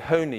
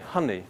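First: The first vowel is a long 'oh' sound. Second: The first vowel is a short 'uh' sound. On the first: The speaker calls it wrong. "If you put an H at the beginning, you wouldn't say honey" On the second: The speaker calls it right. "you'd say honey"

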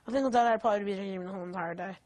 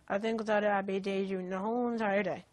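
First: It is said at normal speed. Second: It is said more slowly.

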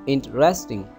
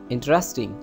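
Both takes have the same delivery.

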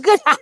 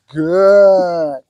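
First: It is said in an excited, squirrely tone. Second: It is said in a calm, soothing tone.

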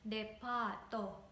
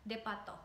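First: The middle vowel is held long. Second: The middle vowel is kept short. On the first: The speaker calls it right. "So you have to elongate A. So it's depa-to" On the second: The speaker calls it wrong. "not depa-to"

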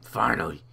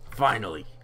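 First: It is said in a strained put-on character voice. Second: It is said in his normal voice.

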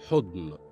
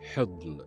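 First: The first vowel is u. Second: The first vowel is i. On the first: The speaker calls it wrong. "بضم الحاء" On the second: The speaker calls it right. "بكسر الحاء"

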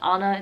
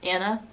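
First: The name is said with a non-American pronunciation. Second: The name is said with an American pronunciation. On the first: The speaker calls it wrong. "It's not Anna" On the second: The speaker calls it right. "in the US, ... it's Anna"

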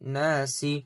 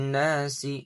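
The two takes are said the same way.

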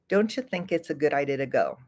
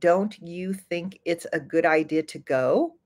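First: The words are run together and linked. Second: Each word is said clearly and separately. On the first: "I would say, ... notice how it all sounds like it's smashed together" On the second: "Instead of saying"

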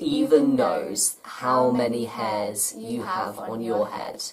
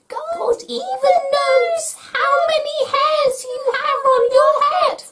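First: It is said in a normal voice. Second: It is said in a squeaky, mousy voice.

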